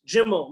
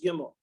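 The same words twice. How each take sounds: First: The word begins with a J sound. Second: The word begins with a hard G sound. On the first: "they have a j sound in the gimel" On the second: "not just gimel"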